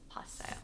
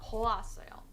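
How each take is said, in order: First: The first two vowels are blended into one syllable. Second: The first two vowels are split into separate syllables. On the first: The speaker calls it right. "we're combining syllables because it ends with the vowel o" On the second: The speaker calls it wrong. "Not poasoyo"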